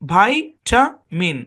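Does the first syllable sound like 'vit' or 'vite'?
vite. The first syllable has a long 'eye' sound. "আর এই same শব্দের উচ্চারণ আমেরিকায় করা হয় ভাইটামিন"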